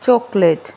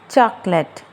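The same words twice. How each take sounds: First: Chocolate as CHOK-o-late, rounded O; chocolate mispronounced CHOK-lait; wrong pronunciation. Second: Chocolate in two syllables, CHAK-let; chocolate without the middle O; correct pronunciation. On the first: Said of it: "not chocolate". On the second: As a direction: say chocolate as CHAK-let, open first vowel. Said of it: "The word is chocolate". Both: Shown as a demonstration.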